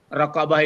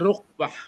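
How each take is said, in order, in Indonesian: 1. Diucapkan dengan tiga suku kata, ra-qa-bah. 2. Diucapkan dengan dua suku kata, ruk-bah. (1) "pembacaan raqabah itu" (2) "dibaca rukbah"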